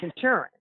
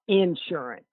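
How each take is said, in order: First: It is said the standard, non-regional way. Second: It is said the regional Alabama way. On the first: This is the form the mother preferred. The speaker calls it right. "and it's insurance" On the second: This is how people in Alabama say it. The speaker calls it wrong. "people said uh, insurance"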